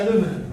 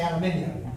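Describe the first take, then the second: First: "aluminum" said a-LOO-mi-num, four syllables, stress on the second; the American "aluminum", no i before the -num. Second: "aluminium" said al-yoo-MIN-ee-um, five syllables, stress on MIN; the British "aluminium", with the extra i sound. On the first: A comic telling the crowd how they say "aluminum". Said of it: "you say aluminum". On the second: A comic telling the crowd how the British say "aluminium". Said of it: "we say aluminium". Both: Shown as a demonstration.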